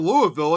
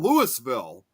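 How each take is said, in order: First: The first part does not sound like 'Lewis'. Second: The first part sounds like 'Lewis'. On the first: This is how the Kentucky city is called. The speaker calls it wrong. "instead of Louisville" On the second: This is how the locals in the Illinois town say it. The speaker calls it right. "it's called Louisville"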